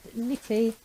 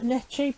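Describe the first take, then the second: First: The middle consonant is a 'k' sound. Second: The middle consonant is a 'ch' sound. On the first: The speaker calls it right. "apparently it's pronounced Nicky" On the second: The speaker calls it wrong. "I would pronounce that Netchi"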